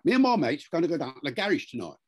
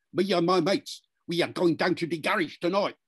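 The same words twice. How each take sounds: First: Traditional Cockney. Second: Higher, syllable-timed Cockney; London youth accent, every syllable evenly punched; multicultural London English. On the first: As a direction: rattle it off in broad Cockney. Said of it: "a Cockney from London". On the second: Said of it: "they will say something more like this". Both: Shown as a demonstration.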